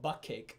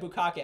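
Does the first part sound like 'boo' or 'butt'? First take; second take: butt; boo. First: The first part sounds like 'butt'. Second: The first part sounds like 'boo'. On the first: The speaker calls it wrong. "I used to call it butt cake because I didn't know how to pronounce it" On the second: The speaker calls it right. "oh yeah"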